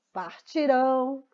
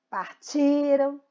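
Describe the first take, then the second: First: Partirão slowly, final RÃO held; partirão, drawn out to a stressed ending. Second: Partiram very slowly with a long TI; partiram, weight on the next-to-last syllable; stress on TI. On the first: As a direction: land on the last syllable of partirão. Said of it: "é a última sílaba mais forte". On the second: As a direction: stretch TI in partiram, weak ending after it. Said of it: "são paroxítonos". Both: Shown as a demonstration.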